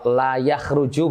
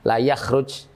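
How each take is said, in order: First: The verb ends with a final u vowel. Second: The verb stops on the final consonant. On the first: Nobody goes out. "berarti itu meniadakan" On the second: Nobody is allowed to go out. "jimnya itu disukun"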